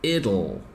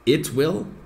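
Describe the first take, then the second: First: The two words merge into one reduced form. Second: Both words are said fully and separately.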